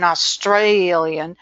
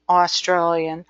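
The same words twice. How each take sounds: First: "Australian" with a stretched, stressed STRAY; "Australian" said Aus-STRAY-lian, Australian style; middle-syllable stress. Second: Said in the usual way. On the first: Shown as a demonstration. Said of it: "hit the intonation on their middle syllables". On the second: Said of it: "some of it is uniquely".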